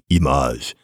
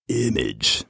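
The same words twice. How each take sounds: First: It is said with a French pronunciation. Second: It is said with an English pronunciation. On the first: "They have something like image" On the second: "and we have image"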